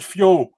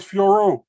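First: "Fio" ending on an open o; the misheard name "Fio", R dropped; mistaken short pronunciation. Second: "Fiorot" with the R sounded, silent t; "Fiorot" in full, R put back; corrected full pronunciation. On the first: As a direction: say "Fio" with no final R sound. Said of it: "Oh, she said Fio". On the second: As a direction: say "Fiorot" with its second syllable. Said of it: "No, she said Fiorot". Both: Retold or imitated.

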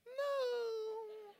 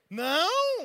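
First: High, drawn-out little no; mock a wife's plaintive denial; imitated wife. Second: High, loud incredulous echo; acted indignant outburst. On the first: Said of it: "minha esposa vai dizer assim". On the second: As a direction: throw the word back loudly. Husband's angry reaction to denial.

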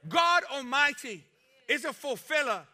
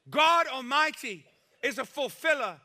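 Both takes have the same delivery.

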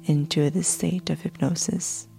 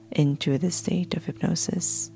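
No difference in how they are said.

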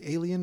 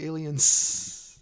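First: Said in the usual way. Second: ALIENS with a long, loud hissed final S; emphasized final S. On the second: Shown as a demonstration. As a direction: hold and push the S ending aliens. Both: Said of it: "just emphasize the S".

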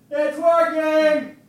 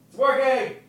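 First: Very high, drawn-out distant holler; yelling from afar. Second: High, distant call; calling from afar. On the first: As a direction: stretch each word out as you call from another room. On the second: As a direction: call it back from the next room. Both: Shown as a demonstration. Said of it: "go to the kitchen and yell".

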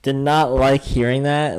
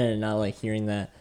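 First: "did not" said louder and slower, falling at the end; emphatic. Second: Said in the usual way. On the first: Shown as a demonstration. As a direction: hit "not" hard and drag it out.

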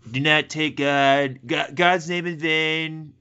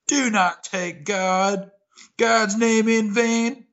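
First: Lightly Trumpy, slow and drawn out; a hint of Trump, slow and emphatic; Trump-style quote. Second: Slow, solemn, literal take; a measured sermon-like read. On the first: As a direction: mimic a Trump delivery, slowly. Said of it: "especially the way he says". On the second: Shown as a demonstration. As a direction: deliver it straight and grave. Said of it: "I like the take".

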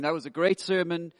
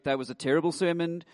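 First: "great" weighted as cheerful praise; mock praise. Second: "terrible" weighted as a mock groan; mock complaint. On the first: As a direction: stress on great, said brightly. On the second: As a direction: stress on terrible, said with mild disgust. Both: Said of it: "come away going".

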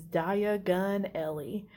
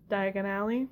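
First: Slow, garbled "Diagon Alley"; mock a badly mangled, drawn-out "Diagon Alley"; horrible accent. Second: Said in the usual way. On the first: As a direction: draw out "Diagon Alley" into mispronounced, separated syllables. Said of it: "he has a horrible accent".

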